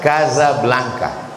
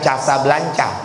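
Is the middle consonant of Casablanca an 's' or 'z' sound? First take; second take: z; s. First: The middle consonant is a 'z' sound. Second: The middle consonant is an 's' sound. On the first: The speaker calls it right. "S itu menjadi Z ... cara bacanya Casablanca" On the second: The speaker calls it wrong. "Jadi bukan Casablanca"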